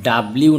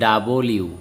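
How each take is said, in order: First: "ডাব্লিউ" run together, b straight into l; wrong letter pronunciation. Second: "ডাবল ইউ" with a vowel between b and l; corrected letter pronunciation. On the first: Teacher shows students how not to say W, wrong pronunciation. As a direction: squeeze "ডাব্লিউ" with no vowel between b and l. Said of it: "ডাব্লিউ না কিন্তু এটা". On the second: Teacher corrects students' letter W, corrected pronunciation. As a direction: open out "ডাবল ইউ" as double plus you. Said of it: "না কিন্তু এটা ডাবল ইউ". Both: Shown as a demonstration.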